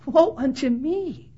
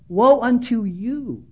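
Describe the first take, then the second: First: Slow, softened self-reproach; imitated penitent lament; humble confession. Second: Slow, drawn-out pronouncement on others; imitated judgmental declaration. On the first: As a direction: confess it slowly, turned on yourself. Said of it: "rather than a whole lot of guys last night saying". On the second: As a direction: stretch out a judgmental 'woe unto you'. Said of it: "A little judgmental".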